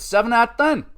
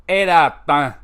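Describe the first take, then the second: First: Higher, punchy verdict announcement; rating call. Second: Louder, punchy verdict announcement; rating call. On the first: Recapper announcing his match score, higher punchy call. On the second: Recapper announcing his match score, punchy louder call. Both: Acted. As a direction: deliver the score like a show host.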